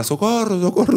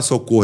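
First: "socorro" high-pitched, as a Spaniard cries it; Spanish-accented "socorro". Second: Said in the usual way. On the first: Shown as a demonstration. Fighter showing how the Spaniard said "socorro", high Spanish accent. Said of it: "ele fala, "Socorro, socorro", em espanhol". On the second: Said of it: "não fala "socorro".

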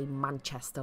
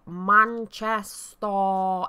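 First: Said in the usual way. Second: "Manchester" drawn out slowly, each syllable exaggerated; mimicked mispronunciation. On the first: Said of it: "We don't say Manchester like that". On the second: Shown as a demonstration. Mancunian mocks how others say "Manchester", slow exaggerated syllables. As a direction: stretch out "Manchester" in mocking imitation, leaning on the last syllable. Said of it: "is what most people say".

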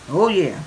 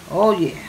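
No difference in how they are said.

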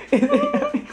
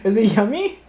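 First: Very high sing-song yummy. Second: Said in the usual way. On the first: Real, not acted. Asking child in baby voice.

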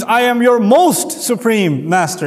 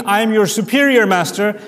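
First: "most" slowed and leaned on; "most supreme" drawn out and stressed. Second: Said in the usual way. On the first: Shown as a demonstration. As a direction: hit "most supreme" as the highest there is. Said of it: "It means". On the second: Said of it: "doesn't mean".

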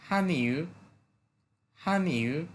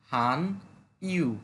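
First: "হান ইউ" run together as ha-niu, the i very light; light i, joined. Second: "হান ইউ" as two separate words, full i; separated normal reading. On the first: Teacher correcting the pronunciation, "হান ইউ" linked with a light i. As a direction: glide lightly through the i of "ইউ", joined onto "হান". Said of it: "ওইটাকে একেবারে হালকা করে বলে". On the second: Teacher showing the expected reading, "হান ইউ" split in two. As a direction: say "হান", pause, then a full "ইউ". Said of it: "normally যদি আমরা এই শব্দের উচ্চারণটা করি". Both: Shown as a demonstration.

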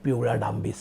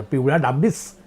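First: Low, hushed book title; ominous title reading. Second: Incredulous title repeat. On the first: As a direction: announce it like a suspense thriller. Reads old thriller book title. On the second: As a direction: question the absurd title with a rising end. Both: Acted.

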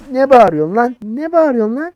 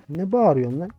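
First: High, loud indignant yell; angry yelling. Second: Said in the usual way. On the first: Real, not acted. Officer challenging a shouting traveller, angry yelling. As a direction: yell the challenge back, pitched right up.

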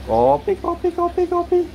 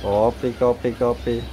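First: Very high, rapid-fire repeated cry; coffee seller's call. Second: Said in the usual way. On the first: Shown as a demonstration. Owner mimics a coffee vendor for bird, very high. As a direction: pitch it way up like a street hawker.

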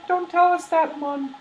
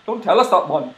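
First: Put-on high-pitched old-lady voice; high falsetto granny read; wrong character's voice. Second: Lively, punchy character read; Drippy. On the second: Acted. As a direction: drop the granny voice and say it forcefully. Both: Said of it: "that's drippy".

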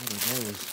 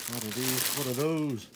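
First: Said in the usual way. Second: Hammed-up, higher and louder; mock meme shout. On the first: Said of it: "repeats phrase, then hams it". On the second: Joking to viewers about his new pants, hammed-up loud voice. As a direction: bellow it like a meme.

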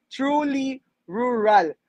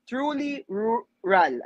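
First: Very slow "Truly rural", fighting through each R; tongue twister retry. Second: Slow, careful truly rural with trouble on the R sounds; stumbling tongue twister. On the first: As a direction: say "Truly rural" slowly, working hard on the R sounds. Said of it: "nabubulol na po ako". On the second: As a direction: drag out "truly rural", tripping on each R. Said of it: "Ayan, nabubul". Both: Shown as a demonstration.

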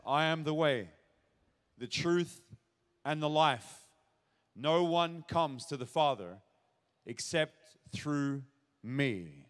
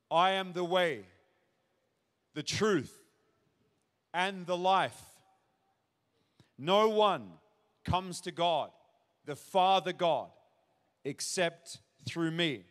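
First: Gentler, unhurried scripture reading; calm, gentle. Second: Slow, deliberate Bible reading with long pauses; firm proclamation, each phrase standing alone; declarative scripture reading. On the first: Retold or imitated. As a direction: say it calmly, leaving space between phrases. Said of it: "probably much more gentle ... just calmly". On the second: Real, not acted. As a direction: proclaim it in separate weighty phrases. First solemn reading of the verse.

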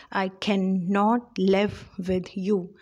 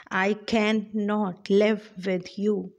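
First: Slow, even da-dum beat on can, live, you; iambic reading. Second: Slow, beat on each stressed syllable; iambic reading. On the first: Teacher showing the class the iambic beat: slow, stressed. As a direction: land on each stressed syllable. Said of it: "So it goes". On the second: Teacher reading the poem's first line for rhythm: slow, stressed beats. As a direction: read it out as da-dum da-dum. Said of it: "how do we see the rhythm in here". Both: Shown as a demonstration.

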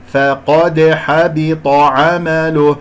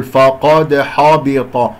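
First: "فقد حبط" chanted slowly, only q and t heavy; correct light letters. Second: "فقد حبط" with every letter thick and backed; wrong heavy letters. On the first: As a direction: keep f, d, h, b thin in "فقد حبط عمله". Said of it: "ولا أفخم الفاء والدال والحاء". (ترقيق الحاء والفاء في "فقد حبط") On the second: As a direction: darken f and h in "فقد حبط", as a mistake. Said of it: "خطأ". (تفخيم خاطئ في "فقد حبط") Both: Shown as a demonstration.

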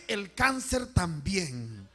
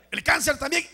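First: Drawn-out, falling repeat; measured, stretched echo; slow solemn repeat. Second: Loud, high first statement; emphatic preacher's call, rising; raised call. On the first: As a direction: say it slowly, letting the tune drop. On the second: Each illness called, then repeated slowly. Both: Real, not acted.

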